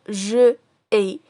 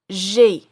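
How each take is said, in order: First: The vowel of je is kept before ai. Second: The vowel of je is dropped before ai. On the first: The speaker calls it wrong. "on ne peut pas dire je ai" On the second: The speaker calls it right. "On a éliminé le E pour dire j'ai"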